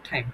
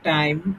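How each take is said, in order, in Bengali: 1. প্রথম t-তে বাতাসের জোরালো ফুঁ আছে। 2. প্রথম t-তে বাতাসের কোনো ফুঁ নেই। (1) "এই যে ঠ এখানে স্পিরিটেড" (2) "টি এর উচ্চারণ আমরা আগে কি করতাম?"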